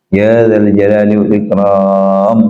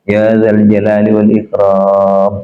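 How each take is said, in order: No difference in how they are said.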